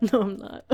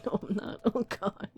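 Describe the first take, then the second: First: Said in the usual way. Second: Teary whisper. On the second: Real, not acted. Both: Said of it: "Tearing up more than the first time".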